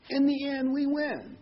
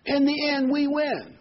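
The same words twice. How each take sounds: First: Triumphant echo. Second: High, slow and ringing; triumphant. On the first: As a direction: say it again, sure and uplifted. Repeats the line for emphasis. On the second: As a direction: proclaim victory to the flock. Triumphant sermon climax. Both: Real, not acted.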